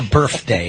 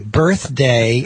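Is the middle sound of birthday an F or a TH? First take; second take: F; TH. First: The middle sound is an F sound. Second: The middle sound is a TH sound. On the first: The speaker calls it wrong. "quit saying F. it's not your birthday" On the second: The speaker calls it right. "you got to get that T H"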